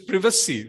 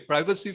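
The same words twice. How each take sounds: First: It is said with a British pronunciation. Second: It is said with an American pronunciation. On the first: "for U K" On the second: "for the American"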